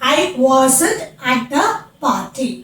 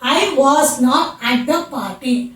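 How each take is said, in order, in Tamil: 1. was மற்றும் not ஒரே சுருக்கமான வார்த்தையாக இணைகின்றன. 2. was மற்றும் not தனித்தனி வார்த்தைகளாகச் சொல்லப்படுகின்றன.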